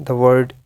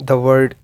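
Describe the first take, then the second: Both takes have the same delivery.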